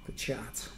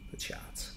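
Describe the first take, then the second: First: Said in the usual way. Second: Whispered, unvoiced and soft. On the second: Shown as a demonstration. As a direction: breathe the words out with no voice. Repeats word, then whispers it.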